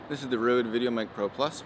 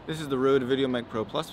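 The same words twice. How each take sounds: First: More of the low frequencies are filtered out. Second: Only the lowest frequencies are filtered out. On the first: "with the low-cut filter on one hundred fifty decibels" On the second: "with the low-cut filter set on seventy-five decibels"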